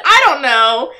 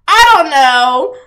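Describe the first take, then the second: First: Said in the usual way. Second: "I don't know" stretched slow and louder, ending on a rise; drawn-out unsure. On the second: Shown as a demonstration. Baffled at the Sims, slowly drawing out "I don't know". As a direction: drag out "I don't know" like a shrug.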